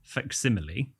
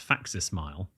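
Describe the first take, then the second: First: The word ends sounding like 'simile'. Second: The word ends sounding like 'smile'. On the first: The speaker calls it right. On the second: The speaker calls it wrong.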